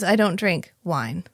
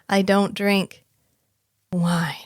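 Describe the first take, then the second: First: It runs straight on into 'wine' without pausing. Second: There is a clear pause before 'wine'. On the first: The speaker calls it wrong. "he didn't give enough of a pause. But he just says" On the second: The speaker calls it right. "He's supposed to say"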